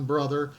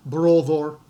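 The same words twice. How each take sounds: First: Said in the usual way. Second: BROTHER said "BRO-thor", with round O vowels and tapped R; Old English BROTHER, firm and round; Old English pronunciation. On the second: Shown as a demonstration. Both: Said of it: "you will recognize father".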